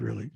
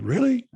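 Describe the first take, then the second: First: Said in the usual way. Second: Imitating an astonished high rising "Really?", louder and much higher; mock disbelief; surprised. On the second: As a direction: sound caught off guard by the feedback. Michael surprised by criticism.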